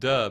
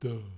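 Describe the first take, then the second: First: It is said in a plain, normal voice. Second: It is said in a dopey, low voice.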